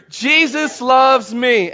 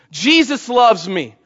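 First: Jesus loves me, called out stronger and slower; louder call. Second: Said in the usual way. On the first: Shown as a demonstration. Pastor rousing church on Resurrection Sunday, louder call. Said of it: "Let's say it with me". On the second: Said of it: "say this with me".

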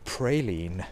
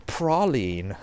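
First: "praline" said as PRAY-leen, with an ay; "praline" switched to the ay sound, pray-leen; second pronunciation. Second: "praline" said as PRAH-leen, with a long ah; "praline" with an open ah sound, prah-leen; first pronunciation. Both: Retold or imitated. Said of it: "or is it praline?".

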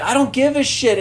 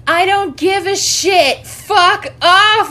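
First: Lightly acted, raised-pitch defiance; mock angry quote. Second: Loud, high, drawn-out mock fury; high-pitched, full-volume tirade imitation; angry retold shout. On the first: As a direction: replay the rant at talking volume. Repeats the movie outburst. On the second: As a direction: shout it slowly, acting out his outburst. Retold angry refusal at window.

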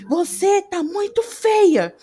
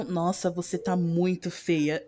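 First: High, loud, drawn-out exclamation; exaggerated exclamation. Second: Low, soft, slow remark; contrasting low intonation. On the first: Showing how intonation carries meaning to hearing people, exclaiming. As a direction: gush it out slowly with a big swoop. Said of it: "entendem o que é dito pela entonação da voz". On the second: Showing the same sentence with another intonation, low and subdued. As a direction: drop the voice and drag it out, understated. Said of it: "Ou então". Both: Shown as a demonstration.

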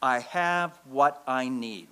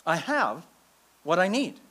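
First: Slow, deliberate, each word weighed; slow mantra. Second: "I have" then a pause before "what I need"; split phrase. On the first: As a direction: lay it down like a creed. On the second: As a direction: break it in two with a held beat. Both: Shown as a demonstration. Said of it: "teaches us to say back to our feelings five words".

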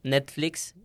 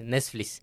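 First: Said in the usual way. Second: Netflix said as "nes-flis", losing the t and k; mother's mispronunciation. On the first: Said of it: "cuando le dices a tu mamá, oye, di". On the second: Retold or imitated. Child has mother repeat Netflix, mispronounced as "nes-flis".

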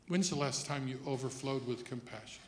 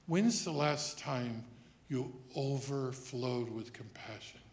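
First: Said in the usual way. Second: Slow, weighty question; slow, pointed repeat. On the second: Real, not acted. Preacher pressing congregation on compassion, slow and pointed. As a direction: draw the question out so it sinks in.

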